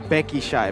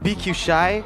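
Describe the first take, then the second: First: The first part is said as one word. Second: The first part is said as two letters. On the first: This is how Indonesian speakers say it. "the Indonesians say" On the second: This is how the local casters say it. "the way we pronounce"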